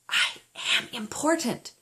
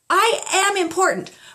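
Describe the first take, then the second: First: It is said at the lowest volume. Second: It is said at a middle volume.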